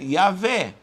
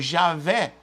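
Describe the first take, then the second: First: The name begins with a Y sound. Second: The name begins with a J sound. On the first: "poderia ser Yavé" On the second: "o J não existe em hebraico"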